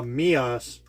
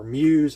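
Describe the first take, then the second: First: "Mias" said as MEE-us, ending in an unstressed -us; Mias pronunciation. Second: "Muse" pronounced like the English word muse; alternative Muse pronunciation. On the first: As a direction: say "Mias" in two syllables, MEE-us. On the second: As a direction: say "Muse" as one syllable, like MYOOZ. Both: Shown as a demonstration. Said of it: "however you wanna say it".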